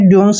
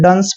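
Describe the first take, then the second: First: The vowel sounds like 'yoo'. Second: The vowel sounds like 'uh'. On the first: The speaker calls it wrong. "इसको आपने ड्यून्स नहीं पढ़ना है" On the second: The speaker calls it right. "आपको सिर्फ डंस पढ़ना है"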